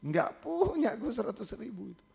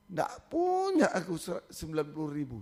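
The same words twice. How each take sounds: First: Lightly imitating a tearful student; student pleading, barely tearful; a touch of tearful. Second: Student crying to the pastor about the fee; crying plea. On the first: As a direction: retell the student's plea with a hint of tears. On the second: Retold or imitated. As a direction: voice breaking into tears on the plea. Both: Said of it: "Sama-sama nangis".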